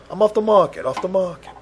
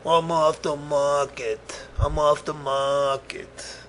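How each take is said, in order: First: Higher-pitched, spoken rather than crooned; playful quick repeat. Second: Slow, drawn-out crooned phrase; sung, playful singsong. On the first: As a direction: say it higher and briskly, without stretching. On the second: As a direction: croon it slowly, stretching each word. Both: Pretend.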